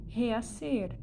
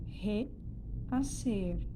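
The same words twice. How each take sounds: First: Said in the usual way. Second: REACER broken as RE, pause, ACER; split into syllables. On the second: Shown as a demonstration. Teacher showing where the word divides, reacer split as re-acer. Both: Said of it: "aí, então, eu vou separar".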